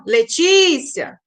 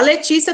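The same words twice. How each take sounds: First: Letícia with TÍ drawn out long; stress on TÍ. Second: Said in the usual way. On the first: Shown as a demonstration. Teacher shows the tonic syllable, TÍ prolonged in Letícia. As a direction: slowly stretch the "tí" in Letícia. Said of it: "A Letícia também, ó". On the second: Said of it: "A Letícia também".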